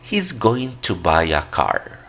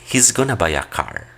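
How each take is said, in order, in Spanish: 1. Going to se dice completo. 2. Going to se reduce a gonna.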